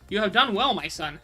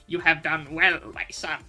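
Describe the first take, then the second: First: It is said in his normal reading voice. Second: It is said imitating the Emperor from Star Wars.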